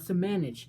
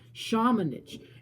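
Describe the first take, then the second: First: The name begins with a plain S sound. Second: The name begins with an SH sound. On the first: The speaker calls it wrong. "not Samanich" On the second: The speaker calls it right. "That's how you say it"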